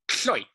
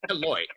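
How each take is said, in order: First: The opening is one puff of air around the tongue. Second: The opening letters are sounded separately, with a vowel between. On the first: The speaker calls it right. "It is pronounced kloit" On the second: The speaker calls it wrong. "No, it's not that"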